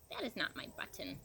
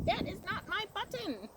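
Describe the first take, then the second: First: Said in the usual way. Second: Much higher, mock shout. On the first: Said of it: "said Toad". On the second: A narrator's reading. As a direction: shout it up high in storybook frustration. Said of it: "shouted Toad".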